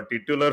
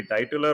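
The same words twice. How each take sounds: First: "titular" said as TIT-ular; titular, first syllable as in "tit". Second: "titular" said as TIE-tular; titular, first syllable rhyming with "tie". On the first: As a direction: say "titular" with a short i. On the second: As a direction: say "titular" with a long i. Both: Shown as a demonstration. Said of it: "should it be titular or titular".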